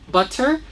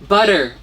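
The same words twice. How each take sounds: First: The middle T is a sharp, crisp stop. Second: The middle T is soft and flapped. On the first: "You can say butter with a sharp T" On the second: "or you can say it with a soft T"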